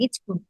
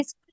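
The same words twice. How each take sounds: First: ইচকুল said with an added i and ch in place of sk; regional mispronunciation. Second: Said in the usual way. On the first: Shown as a demonstration. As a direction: say ইচকুল as ich-kul, not স্কুল. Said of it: "কেউ বলে ইচকুল". (ইচকুল, স্কুলের বদলে আঞ্চলিক উচ্চারণে) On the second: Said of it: "সঠিক উচ্চারণটা আসলে স্কুল".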